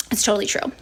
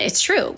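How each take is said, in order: First: Breathy conspiratorial whisper of agreement. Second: Said in the usual way. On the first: Real, not acted. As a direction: drop to a secret whisper. Whispered aside agreeing with herself.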